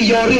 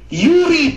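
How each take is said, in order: First: The first vowel sounds like 'oh'. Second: The first vowel sounds like 'oo'. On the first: The speaker calls it wrong. "hindi Yori ha?" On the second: The speaker calls it right. "Yuri, puki ng ina ka, Yuri!"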